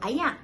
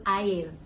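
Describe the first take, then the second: First: It is said in the Kedah way, 'ayak'. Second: It is said in the Selangor/KL way, 'air'.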